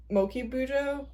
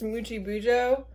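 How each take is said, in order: First: "Moki Bujo" with a hard k in "Moki"; unsure alternative pronunciation. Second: "Muji Bujo" with a soft j in "Muji"; tentative pronunciation. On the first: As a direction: say "Moki" as MOH-kee, tentatively. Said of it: "That could be wrong". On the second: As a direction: say "Muji" as MOO-jee. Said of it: "I think it's pronounced". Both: Real, not acted.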